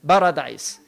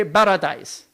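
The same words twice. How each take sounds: First: Put-on "paradise" with a heavy Arabic accent and a rolled R. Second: Said in the usual way. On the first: Teacher imitating how Arabs say "paradise" with a heavy accent. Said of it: "they put those heavy accents". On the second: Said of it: "So Arabs will say for paradise".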